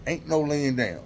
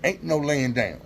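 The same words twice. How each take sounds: The two takes are said the same way.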